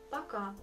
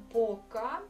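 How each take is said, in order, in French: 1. La première voyelle sonne comme un 'a'. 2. La première voyelle est un vrai son 'o'. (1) "Donc ce mot on prononce comme Poka, mais on l'écrit comme Poka" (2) "Si vous pensez qu'on doit euh, prononcer ce mot comme Poka"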